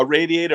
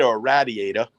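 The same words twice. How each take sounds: First: Said in the usual way. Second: "radiator" with short A as in "rad"; New York "radiator", opening like "rad" rather than "raid"; New York pronunciation. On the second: Shown as a demonstration. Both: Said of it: "If you're from New York".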